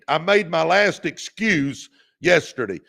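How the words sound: It is said with strong, emphatic conviction.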